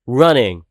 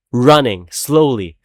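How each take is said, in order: First: Said in the usual way. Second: Running slowly, stretched and slow; slowly drawn out. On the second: Shown as a demonstration. Mocking Foxy's slow chase, drawn out slowly.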